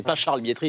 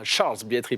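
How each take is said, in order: First: Said in the usual way. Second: Charles Bietri, Charles with an English-style s and no French r; classy pronunciation. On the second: Retold or imitated. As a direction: mimic the colleague's classy way of saying Charles Bietri. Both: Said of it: "C'est beaucoup plus classe dans ces, dans sa voix".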